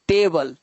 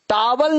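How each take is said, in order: First: The first vowel sounds like 'ay'. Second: The first vowel sounds like 'ah'. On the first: The speaker calls it right. "ए को हम ए पढ़ते पढ़ते टेबल" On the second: The speaker calls it wrong. "टावल नहीं"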